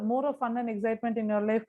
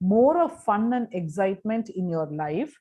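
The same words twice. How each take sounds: First: It is read in a flat, plain way. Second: It is read with lively, varied intonation. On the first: The speaker calls it wrong. "when just to read it" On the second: The speaker calls it right. "you read it with appropriate intonation"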